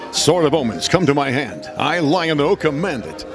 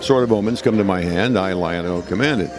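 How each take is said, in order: First: It is said in a bold, projected, dramatic voice. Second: It is said in a relaxed, conversational voice. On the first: It is a performance for the show. "on television, it's" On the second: It is everyday talk. "when I'm sitting here talking to you, I would say something like"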